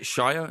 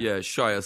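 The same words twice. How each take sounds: First: "Shia" tried as CHY-a, rising and unsure; unsure pronunciation. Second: "Shia" settled as SHY-a, falling and sure; corrected pronunciation. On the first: Asking a friend how to say "Shia", unsure CHY-a. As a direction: test out "Shia" as CHY-a with a questioning lift. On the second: Accepting the friend's correction, settled SHY-a. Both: Shown as a demonstration. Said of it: "how do you say it?".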